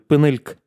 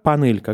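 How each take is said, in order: First: The first vowel is reduced, and the final vowel is dropped. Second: Every vowel is pronounced fully, the first as 'a'. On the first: "последний гласный иногда он будет отсутствовать" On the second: "Он будет произноситься не как «панелька»"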